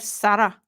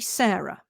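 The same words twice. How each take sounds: First: The name is said in a Scottish accent. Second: The name is said in a plain accent. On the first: This is what people on the island call her. "in the Scottish accent, they call her Sarah" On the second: This is her actual name. "She's actually Sarah"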